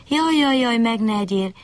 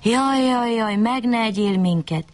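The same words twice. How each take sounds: First: High, wailing plea of a frightened bunny; lamenting bunny. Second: High, pleading wail of a fox; begging fox. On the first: Bunny begs the fox not to eat him, wailing high. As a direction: cry out like a scared little rabbit begging. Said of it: "siránkozott a nyuszi". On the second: Fox on its hind legs begs the wolf, pleading. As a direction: plead for your life, a bit higher. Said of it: "s úgy könyörgött a farkasnak". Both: A narrator's reading.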